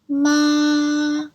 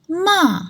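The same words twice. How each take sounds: First: The pitch stays high and level. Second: The pitch falls from high to low. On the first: "high and it's like a straight line" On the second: "falls from the highest to the lowest"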